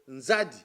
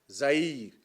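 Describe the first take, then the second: First: The name begins with an nz sound. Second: The name begins with a plain z sound. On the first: This is the original name, meaning river. The speaker calls it right. "le nom en Kikongo qu'on appelle Nzadi" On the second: This is a deformed form of the name. The speaker calls it wrong. "c'est une déformation du nom"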